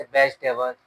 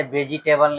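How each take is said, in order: First: वेजिटेबल said as vej-te-bal with the middle vowel dropped; the right way to read वेजिटेबल; correct pronunciation. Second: वेजिटेबल sounded out as ve-ji-te-bal, every syllable spelt out; the wrong way to read वेजिटेबल; wrong pronunciation. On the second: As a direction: spell out वेजिटेबल in four syllables. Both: Shown as a demonstration. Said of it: "इसे वेजिटेबल नहीं पढ़ना है".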